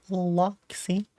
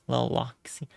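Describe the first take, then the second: First: High, breathy whisper. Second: Said in the usual way. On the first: Shown as a demonstration. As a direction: whisper the name softly. Repeats name in a whisper.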